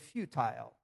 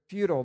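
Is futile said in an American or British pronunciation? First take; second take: British; American. First: Futile is said with a British pronunciation. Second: Futile is said with an American pronunciation. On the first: "If we were in Great Britain, I would say futile" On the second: "But here it's futile"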